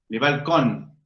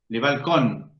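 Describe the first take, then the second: No difference in how they are said.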